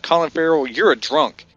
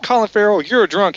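First: Retold jab, close to own voice; understated mock scolding; lightly voiced accusation. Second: Higher, louder mock accusation; imitated girlfriend's scolding, high and insistent; girlfriend joining in. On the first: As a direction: accuse him matter-of-factly, lightly acted. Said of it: "he's like". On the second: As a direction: pile on as the girlfriend, pitched up. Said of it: "then the girl comes over, she goes".

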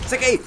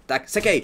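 First: High yelp. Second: Said in the usual way. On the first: Real, not acted. Urging himself while chopping.

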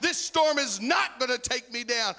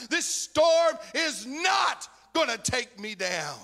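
First: High, loud, hammering the word not; loud preaching refrain. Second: High, loud and slow, each word of not stretched and shouted; slow shouted refrain. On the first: Preacher declaring victory over the storm to church, loud. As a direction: fire the line out, punching not. Refrain repeated, then slowed. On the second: Preacher's last shout to congregation over the storm, slow. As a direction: drag the line out as a roaring final cry. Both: Acted.

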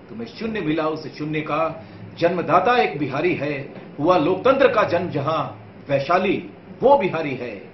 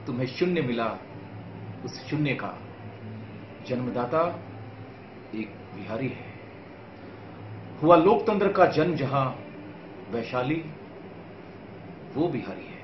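First: Louder, higher, driving verse; rousing poem recitation. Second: Restrained verse in short, separated phrases; measured poem recitation. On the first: Poet repeats Bihar's glories to viewers, rousing declamation. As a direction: declaim it proudly in a connected, forceful run. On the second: Poet tells viewers of Bihar's heritage, measured recitation. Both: Acted.

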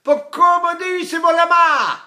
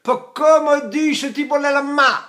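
First: Cry-like Italian dialect. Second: High, loud dialect outburst; Italian dialect. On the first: Teacher shows dialect is still crying, high loud wailed Italian. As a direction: stretch the dialect into a ringing cry. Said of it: "But it's still like this". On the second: Teacher shows Italians speaking dialect, high loud exclamation. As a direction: call it out in spoken Italian dialect. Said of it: "when they drop and speak dialect". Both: Shown as a demonstration.

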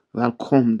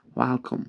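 First: "Welcome" said as "vel-kom", with V and round O; "Welcome" mispronounced with a full "o" ending; wrong pronunciation. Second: "Welcome" with English W, as "wal-kum"; "Welcome" said with W, never V; corrected pronunciation. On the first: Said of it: "Welcome değil". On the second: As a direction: glide into "Welcome" on a rounded W. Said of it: "yani welcome değil". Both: Shown as a demonstration.

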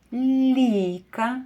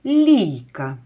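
First: Teacher drawing out Лійка for a sound game; drawn-out example word. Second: Лійка said louder with a falling close; confirming Лійка as the right answer, louder and falling; firm answer word. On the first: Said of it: "Слухайте". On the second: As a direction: state Лійка clearly and firmly as the right answer. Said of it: "Молодці". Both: Shown as a demonstration.

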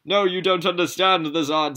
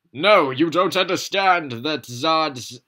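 First: High, loud protest; Zod's loud voice. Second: Loud, high, slow character protest; high pleading cry from Zod; Zod's loud voice. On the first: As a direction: cry it out high as Zod. Zod voice retaken. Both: Acted.

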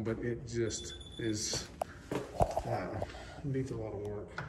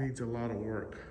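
First: Muffled behind a face mask; talking through a mask. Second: Said in the usual way. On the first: Real, not acted. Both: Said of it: "Sorry, I'm talking with my mask on".

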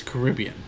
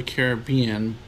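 First: Caribbean with stress on RIB; second-syllable stress. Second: Caribbean as KARR-uh-BEE-un; first-and-third-syllable stress. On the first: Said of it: "I feel like it's Caribbean". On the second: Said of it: "but I feel like it's Caribbean". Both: Shown as a demonstration.

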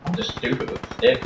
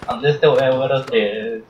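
First: Whispered mutter. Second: Said in the usual way. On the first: Real, not acted.

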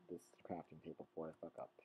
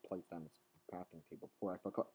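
First: Whispered fast under the breath; unvoiced quick whisper. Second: Said in the usual way. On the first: Shown as a demonstration. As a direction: hush it, almost a secret. Repeats line, first take whispered.

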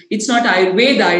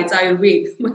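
First: "Ayurveda" with the final A sounded, loudly; loudly cite "Ayurveda" with its open final vowel as the wrong form; mock correction. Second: "Ayurveda" clipped to "Ayurved", loudly; mock correction. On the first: Teacher imitating people who correct her, "Ayurveda" with final A. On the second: Teacher imitating correctors, amused, "Ayurveda" without its final A. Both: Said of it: "people correcting me saying".

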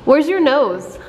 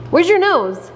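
First: Said in the usual way. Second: "your" lifted high in "Where's your nose?"; stress on your. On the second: Shown as a demonstration. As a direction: lift "your" up, coaxing the toddler. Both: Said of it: "I want you to say nose".

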